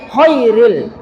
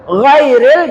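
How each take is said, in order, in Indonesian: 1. Kata ini diawali dengan bunyi kh serak tak bersuara. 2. Kata ini diawali dengan bunyi g tenggorokan bersuara. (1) "salah sebut"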